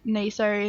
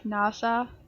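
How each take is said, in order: First: It is pronounced with an English accent. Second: It is pronounced with a non-English accent. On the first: "in like English or American accents" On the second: "I would just pronounce it like in my language"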